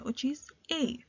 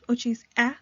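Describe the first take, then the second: First: The letter is said as its name. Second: The letter is said as its short sound. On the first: "we are now going to say the name of the letter" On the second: "instead of saying the sound"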